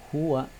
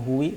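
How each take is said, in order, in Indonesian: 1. Kata itu berakhir dengan vokal a. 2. Kata itu berakhir dengan vokal i. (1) "maka bacaannya tetap huwa" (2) "atau huwi"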